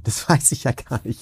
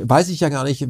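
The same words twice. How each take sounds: First: Laughing. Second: Said in the usual way. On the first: Real, not acted. Same words retaken with a laugh.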